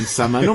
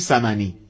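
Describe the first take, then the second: First: The word ends with an oo vowel. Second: The word ends with an ee vowel. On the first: This is how everyone else says it. "همه دنیا میگن سمنو" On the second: This is how people from Shiraz say it. "ما میگیم سمنی"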